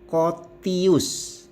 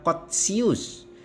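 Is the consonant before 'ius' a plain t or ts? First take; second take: plain t; ts. First: The consonant before 'ius' is a plain t. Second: The consonant before 'ius' is ts. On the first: The speaker calls it right. "Begitu juga Kotius" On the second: The speaker calls it wrong. "tidak dibaca Kotsius"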